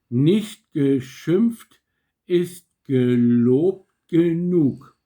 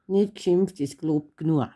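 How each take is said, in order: First: Slow, careful standard German "Nicht geschimpft ist gelobt genug". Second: Bavarian "Nicht geschimpft ist gelobt genug" with "nua" at the end. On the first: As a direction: say it carefully the way it's written. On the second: Daughter shows Papa the Bavarian version. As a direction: say it the way they say it in Bavaria, dropping sounds. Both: Shown as a demonstration. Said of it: "Und jetzt auf Bayerisch".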